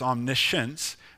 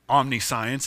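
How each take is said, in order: First: The ending does not sound like 'science'. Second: The ending sounds like the word 'science'. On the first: The speaker calls it right. "it's omniscience" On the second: The speaker calls it wrong. "it's not science, it's not omniscience"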